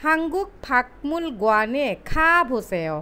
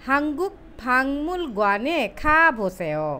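First: ফাকমুল with a hard k before the m; slow spelled reading, ফাকমুল as pak-mul; ফাকমুল with a clear k stop; as written. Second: ফাংমুল with the k turned into ng; slow correct Korean, ফাংমুল as pang-mul; ফাংমুল with an ng sound before the m; nasalised pronunciation. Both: Shown as a demonstration. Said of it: "শেষেরটি পড়ছি".

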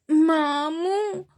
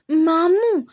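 First: Drawn-out, higher whimpered మాము; mild weepy child calling his uncle; crying little boy. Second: Higher, louder, firm clipped మాము; serious little boy. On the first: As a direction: stretch మాము slowly like a tearful toddler. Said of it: "అన్నాడు విహాన్ ఏడుస్తూ". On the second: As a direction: call మాము sternly like a tiny boss. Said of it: "సీరియస్గా". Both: A narrator's reading.

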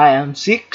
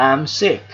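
First: "sick" wrongly ending in ks, like six; mispronounced as six. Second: "sick" ending in a short k; final k sound. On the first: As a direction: add an s after the k in "sick". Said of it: "ฉันเป็นหมายเลขหก". (พูด sick ผิดเป็น six มีเสียงซ์ท้ายคำ) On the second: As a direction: say "sick" with a clean k at the end, no s. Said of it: "เสียงเคอะเคอะเคอะ". (คำว่า sick จบด้วยเสียงเคอะสั้นๆ) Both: Shown as a demonstration.

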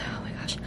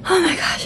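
First: Whispered, winded; breathless whisper. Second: Excited exclamation. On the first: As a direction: gasp it under your breath. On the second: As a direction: burst out in amazement. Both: Real, not acted. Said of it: "I'm out of breath".

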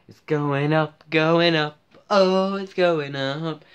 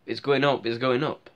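First: Excited sing-song. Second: Said in the usual way. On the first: Acted. Vlogger gloating over his channel's growth, building excited sing-song. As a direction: crow it out, stretching the last one.

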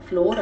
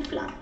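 First: ફ્લોર with a long 'o' vowel; pronunciation demo. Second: ફ્લાર with a long 'aa' vowel; alternative pronunciation. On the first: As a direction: say ફ્લોર with 'or' at the end. (ફ્લોર, 'ઓ'ના ઉચ્ચાર સાથે) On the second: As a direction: say ફ્લાર with 'aar' at the end. (ફ્લાર, 'આ'ના ઉચ્ચાર સાથે) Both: Shown as a demonstration. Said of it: "અને ફ્લાર પણ કહેવાય છે".

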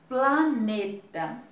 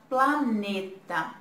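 The two takes are said the same way.

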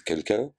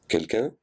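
First: High called question into the empty house; calling out. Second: High rising call into the house; calling out again. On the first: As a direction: call out to see if anyone is home. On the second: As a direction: call once more, a little more insistent. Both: A narrator's reading. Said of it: "Camille cria à plusieurs reprises".

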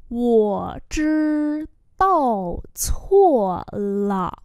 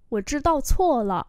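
First: Very slow, syllable by syllable; slow model reading. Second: Said in the usual way. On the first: Shown as a demonstration. Teacher modelling an apology for learners, very slowly. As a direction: hold each tone out.

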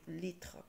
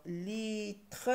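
First: Said in the usual way. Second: Slow "litre", split in two; drawn-out, deliberate "litre"; syllable by syllable. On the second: Shown as a demonstration. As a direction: hold "li", then a full "tre". Teacher trying out syllables.

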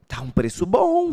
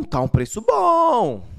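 First: Said in the usual way. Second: "bom" stressed, louder and slower; emphatic. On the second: Real, not acted. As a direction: lean hard on "bom", slower. (ênfase em "bom", mais alto e lento)

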